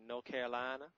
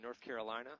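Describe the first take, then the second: First: Mock Southern accent with the r dropped in "North"; Southern drawl. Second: Said in the usual way. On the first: Host on growing up in North Carolina, mock Southern drawl. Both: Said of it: "a beautiful Southern drawl".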